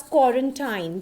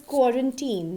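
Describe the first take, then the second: First: Quarantine ending like "tine"; common mispronunciation. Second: Put-on quarantine ending in "teen"; correct pronunciation. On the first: Teacher showing how most people say it, mispronounced. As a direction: say quarantine to rhyme its end with "time"-like "tine". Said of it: "most of the people say it as". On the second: Teacher correcting what most people say, correct pronunciation. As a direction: say quarantine with a long ee at the end. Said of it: "but it is quarantine". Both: Shown as a demonstration.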